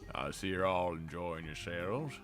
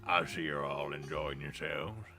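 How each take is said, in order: First: It is said in a normal voice. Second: It is said in a gruff voice.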